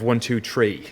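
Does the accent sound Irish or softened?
Irish. It is said in a strong Irish accent. This is the speaker's native way of speaking. "instead of"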